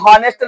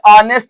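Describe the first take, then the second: First: The word begins with an audible h sound. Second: The word begins directly with a vowel sound. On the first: The speaker calls it wrong. "एच समझ के हॉनेस्ट न समझ जाना" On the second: The speaker calls it right. "ये ऑनेस्ट है, ये एच जो है साइलेंट में है"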